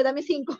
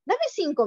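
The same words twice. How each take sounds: First: Said in the usual way. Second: Higher, eager little voice; a lightly voiced child begging for a high five; little girl chirping for a high five; child asking for high five. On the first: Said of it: "ya lo acostumbré a decirle". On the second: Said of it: "me dice".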